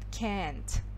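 It is said with an American accent. "Американский вариант, он больше идет «can't»"

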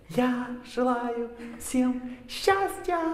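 It is said with strong emotion.

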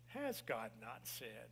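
It is said in the serpent's seductive voice.

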